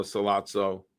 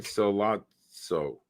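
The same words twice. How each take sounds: First: Said in the usual way. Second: "Sollozzo" drawn out very slowly, syllable by syllable; careful pronunciation. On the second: Shown as a demonstration. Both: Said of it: "am I saying that right?".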